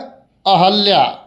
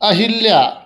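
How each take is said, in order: First: The second syllable has an a vowel. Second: The second syllable has an i vowel. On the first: The speaker calls it right. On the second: The speaker calls it wrong.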